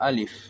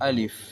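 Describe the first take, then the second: Both takes have the same delivery.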